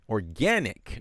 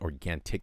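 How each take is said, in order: First: The word is said without a t sound. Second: The word is said with a t sound. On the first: The speaker calls it right. "There's no T in there" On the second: The speaker calls it wrong. "not organic"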